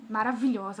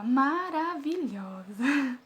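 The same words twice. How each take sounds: First: Said in the usual way. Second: Hugely drawn-out, singing cheer; slow, hammed-up encouragement; motivating nurse. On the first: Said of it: "Ela começou a me motivar, começou a falar". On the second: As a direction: stretch every syllable of the praise, imitating a cheerleading nurse. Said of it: "Ela ficava".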